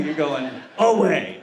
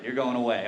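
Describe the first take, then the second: First: "going away" slow and loud, AWAY held long and hammed up; drawn-out AWAY. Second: Said in the usual way. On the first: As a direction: stretch out AWAY, louder, with the voice swooping. Repeats the line, hammed up.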